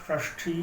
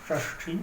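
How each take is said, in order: No difference in how they are said.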